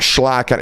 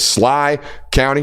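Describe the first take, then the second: First: The name begins with an 'sh' sound. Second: The name begins with a plain 's' sound. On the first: The speaker calls it wrong. "not Schley County" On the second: The speaker calls it right. "You don't say the H"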